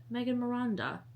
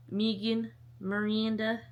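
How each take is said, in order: First: Megan Miranda as MAY-gun muh-RAHN-duh; alternative pronunciation. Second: Megan Miranda slowly, as MEE-gan mer-ee-AN-duh; drawn-out pronunciation. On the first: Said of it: "how to say that with any accent". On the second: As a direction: stretch Megan Miranda, long ee in Megan. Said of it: "don't know how to say that". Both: Shown as a demonstration.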